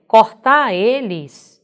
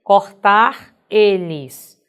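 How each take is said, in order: First: CORTAR ELES with the R dropped, as cortá eles; colloquial pronunciation. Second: CORTAR ELES slowly, with the R of cortar clearly sounded; final R pronounced. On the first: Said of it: "numa pronúncia coloquial". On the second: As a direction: spell out cortar eles word by word, louder, keeping the R. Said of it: "terminando em R". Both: Shown as a demonstration.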